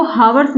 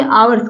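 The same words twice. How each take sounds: First: हावर्स with an audible H first; wrong sounded H. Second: आवर्स starting straight on the long आ; silent H. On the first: Teacher warns learners off this reading, हावर्स with H sounded. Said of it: "इसको हावर्स नहीं कहेंगे". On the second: Teacher gives learners the correct word, आवर्स with silent H. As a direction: drop the H from आवर्स. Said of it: "आवर्स कहेंगे". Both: Shown as a demonstration.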